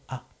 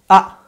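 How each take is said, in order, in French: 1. La voyelle est prononcée doucement. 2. La voyelle est prononcée fort.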